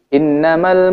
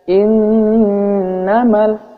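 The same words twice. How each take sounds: First: The nasal 'nn' sound is cut short. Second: The nasal 'nn' sound is held long. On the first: The speaker calls it wrong. "maka kita membacanya salah, tergesa-gesa" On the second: The speaker calls it right. "harusnya seperti itu"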